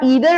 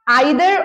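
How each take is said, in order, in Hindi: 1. पहला स्वर 'ee' जैसा लगता है। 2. पहला स्वर 'eye' जैसा लगता है। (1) "अब इसके दो प्रोनाउंसिएशन होते हैं" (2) "अगर आप आइदर और बोलते हैं वो भी सही है"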